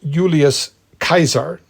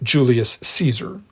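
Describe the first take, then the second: First: The name starts with a Y sound. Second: The name starts with a J sound. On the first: The speaker calls it right. "is there a J sound ... it was" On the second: The speaker calls it wrong.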